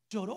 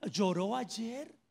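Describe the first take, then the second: First: "¿Lloró?" with a long held final vowel; drawn-out lloró. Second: "¿Lloró ayer?" asked slowly, rising on "Lloró"; stress on lloró. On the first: Preacher repeats the question to the congregation, drawn out. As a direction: stretch out "¿Lloró?" as a pointed question. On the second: Preacher challenges the congregation, rising on "Lloró". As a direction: lean on "Lloró" with a slow, rising question. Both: Acted.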